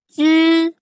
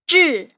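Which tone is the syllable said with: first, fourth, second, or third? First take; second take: first; fourth. First: It is said in the first tone. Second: It is said in the fourth tone. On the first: "dari yang pertama itu" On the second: "nada keempat itu"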